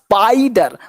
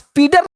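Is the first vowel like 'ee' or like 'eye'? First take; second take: eye; ee. First: The first vowel sounds like 'eye'. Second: The first vowel sounds like 'ee'. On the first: The speaker calls it right. "आई का sound क्या, आई" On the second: The speaker calls it wrong. "इसलिए इसको स्पीडर नहीं"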